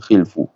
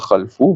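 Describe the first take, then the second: First: The first vowel is i. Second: The first vowel is a. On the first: "bukan khilfu" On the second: "bukan khalfu"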